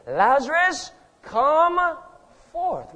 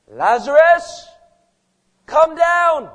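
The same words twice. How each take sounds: First: High, loud summons with a pause before the last word; commanding call. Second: Loud, high, drawn-out summons; commanding call. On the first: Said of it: "calls into the place of death". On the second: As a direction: call it out slowly to someone far away. Voicing Jesus calling into tomb. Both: Acted.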